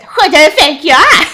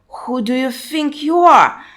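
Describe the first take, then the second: First: It is said in the character's put-on voice. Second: It is read in the speaker's plain voice.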